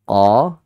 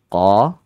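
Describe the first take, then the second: Both takes have the same delivery.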